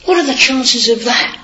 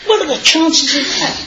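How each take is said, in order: First: Higher mock-doubtful question; mock voice of doubters questioning faith; sceptical people. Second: High, laughing astonishment; imitating colleagues marvelling at the coincidence; amazed coworkers. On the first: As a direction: imitate a doubter's shrug. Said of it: "a lot of people will say". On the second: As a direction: mimic the office crowd, amazed. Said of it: "And they all go".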